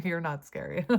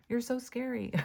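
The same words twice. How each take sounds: First: Said in the usual way. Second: High mock-fearful sarcasm; sarcastic. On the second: Reader teasing the viewer about being feared, sarcastic. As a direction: say it high, teasing, not meaning it. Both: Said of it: "That's sarcasm".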